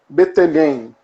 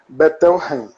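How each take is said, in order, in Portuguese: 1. O nome tem pronúncia brasileira. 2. O nome tem pronúncia alemã. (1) "vou falar como um bom brasileiro" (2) "Como ele é um, um austríaco, é mais alemão, então seria Bettelheim"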